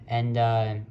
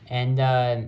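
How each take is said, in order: Both takes have the same delivery.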